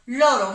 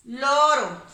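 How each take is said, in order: First: Loro said firmly with one tapped r; soft r. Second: Loro repeated firmly, single tapped r; soft r. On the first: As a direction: say Loro with a light r tap. (Loro con r suave) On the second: (Loro otra vez, r suave) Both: Shown as a demonstration. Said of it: "Muy bien".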